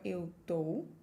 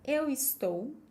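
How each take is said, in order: First: The verb is shortened to one syllable. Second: The verb is said in full, two syllables. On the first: "or eu tô" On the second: "I can say eu estou"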